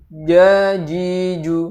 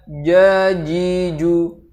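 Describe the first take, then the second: No difference in how they are said.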